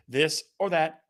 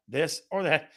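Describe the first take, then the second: No difference in how they are said.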